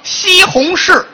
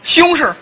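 First: It is said in standard Putonghua pronunciation. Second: It is said in Beijing dialect, syllables slurred.

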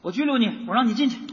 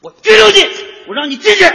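First: It is said weakly and quietly. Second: It is said loudly and forcefully.

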